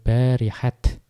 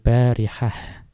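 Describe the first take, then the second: First: The word ends with a t sound. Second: The word ends with an h sound. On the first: "boleh juga dibaca dengan tetap dengan ta" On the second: "di situ diakhiri dengan hak"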